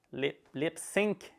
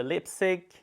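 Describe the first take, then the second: First: "sync" slowed, full nasal ng ending; lip, lip "sync" with a drawn-out ss and clear ng; careful correction. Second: "sync" said like "sick", no ng sound; "sync" clipped to "sick", French-tinged; sync without the ng. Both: Real, not acted. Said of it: "Sorry about my French accent".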